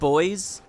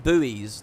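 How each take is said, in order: First: It is said with a British-style pronunciation. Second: It is said with an American-style pronunciation. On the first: "to me, these are called boys" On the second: "Americans call them buoys"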